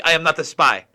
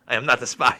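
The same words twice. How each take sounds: First: I stressed, said louder; deadpan denial leaning on I; mock denial. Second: Dry insistence on not; mock denial. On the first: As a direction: punch the word I in "I am not the spy". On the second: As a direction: stress on not, said lower. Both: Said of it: "have you seen she's been asked".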